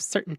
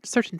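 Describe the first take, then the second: First: The T in the middle is dropped. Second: The T in the middle is clearly pronounced. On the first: "like the dropped T" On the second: "like the T"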